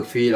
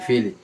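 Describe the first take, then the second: First: "ফিল" closed on l, final i dropped; stopping on the word. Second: "ফি, লি" with an open i at the end; joined reading. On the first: Teacher shows the pause form, "ফিল" as one syllable. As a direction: end "ফিল" on the consonant l. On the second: Teacher spells it before pausing, "ফি, লি" in two syllables. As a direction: sound the final vowel in "ফি, লি". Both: Shown as a demonstration. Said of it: "এক অফ হইলে কি হবে".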